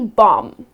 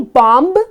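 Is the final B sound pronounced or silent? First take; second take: silent; pronounced. First: No B sound is heard at the end. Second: A B sound is heard at the end. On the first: The speaker calls it right. "it's just gonna be bomb" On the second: The speaker calls it wrong. "It's not gonna be bomb"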